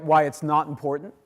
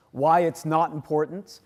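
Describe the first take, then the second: First: "not" repeated deliberately, same weight; stress on "not" again. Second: "not" leaned on as a surprise twist; stress on "not". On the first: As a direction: confirm "why it's not important" by repeating it. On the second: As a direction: hit "not" in "why it's not important". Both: Shown as a demonstration. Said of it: "and that's right".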